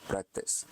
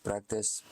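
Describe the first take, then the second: First: "practice" whispered, breathy and much softer; fading whisper. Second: Said in the usual way. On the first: Shown as a demonstration. Lecturer whispers the word to drive the point home. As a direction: let "practice" fade into a whisper. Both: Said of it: "latihan, practice".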